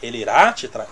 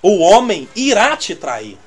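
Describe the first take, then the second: First: Low, doubting repeat of "irá te trair"; incredulous echo. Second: Slow, solemn mock prophecy; quoting a bold prophecy. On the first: Real, not acted. Preacher doubting the prophecy he quoted, incredulous. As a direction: question it in disbelief. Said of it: "Como assim?". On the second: Preacher retelling a careless prophecy, slow and solemn. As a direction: deliver it slowly like a solemn warning. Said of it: "alguém falou assim".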